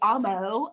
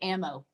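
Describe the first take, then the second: First: It is said in a put-on, unfamiliar accent. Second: It is said in a natural country accent. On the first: "I have to get a whole nother accent just for it to come out like that" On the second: "I'm super country, right? And I say ammo, like guns"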